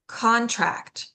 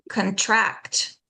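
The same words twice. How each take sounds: First: "contract" as CON-tract; first-syllable stress. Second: "contract" as con-TRACT; weak "con", strong "TRACT" in "contract"; second-syllable stress. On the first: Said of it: "stress that first syllable". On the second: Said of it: "we stress the second syllable". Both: Shown as a demonstration.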